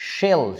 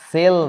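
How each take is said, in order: First: The word begins with an sh sound. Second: The word begins with a plain s sound. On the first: The speaker calls it right. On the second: The speaker calls it wrong. "আমাদের বইতে লেখে সেল, আরে গর্দব, সেল না"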